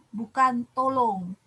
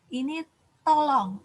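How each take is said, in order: First: "tolong" with the wrong O sound, slowly; dibaca salah. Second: "tolong" with the correct O sound; dibaca benar. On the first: (ucapan "tolong" yang salah, pelan) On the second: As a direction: say "tolong" the right way, clearly. (ucapan "tolong" yang benar) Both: Shown as a demonstration.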